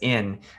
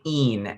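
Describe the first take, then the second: First: The vowel sounds like the English word 'in'. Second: The vowel is a long 'ee' sound. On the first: The speaker calls it wrong. "it's so easy to pronounce that as in uh, because that's the English word that it looks like" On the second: The speaker calls it right. "to remember that this is really een"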